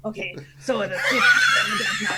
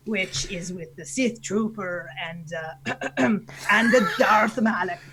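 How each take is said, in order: First: Higher, reworked pirate delivery; recalibrated pirate voice. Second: Slow, hesitant pirate voice with throat clearing; pirate captain feeling for the voice; Canadian pirate. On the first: Redoing the team names, recalibrated Canadian pirate voice. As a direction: restart it as a more theatrical pirate. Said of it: "recalibrate your voice". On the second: Naming the team before restarting, slow Canadian pirate voice. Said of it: "your Canadian pirate voice". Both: Acted.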